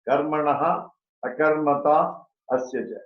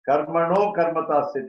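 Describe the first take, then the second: First: The words are split apart with separate endings. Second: The words are joined together without breaks.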